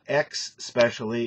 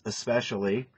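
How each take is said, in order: First: The word begins with an 'ex' sound. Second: The word begins with an 'es' sound. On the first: The speaker calls it wrong. "it's not X specially" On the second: The speaker calls it right. "it's especially"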